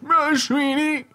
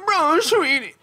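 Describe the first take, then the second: First: It is said in an old man voice. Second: It is said in an old lady voice.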